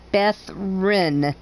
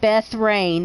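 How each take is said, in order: First: The second syllable sounds like 'rin'. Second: The second syllable sounds like 'rain'. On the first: The speaker calls it right. "it's Beth Rin" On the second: The speaker calls it wrong. "It's not Beth Rain"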